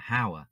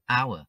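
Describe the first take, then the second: First: The word starts with an h sound. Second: The word starts with a vowel sound. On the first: The speaker calls it wrong. "chúng ta nhớ không phát âm là hour" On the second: The speaker calls it right. "lược chữ h đi"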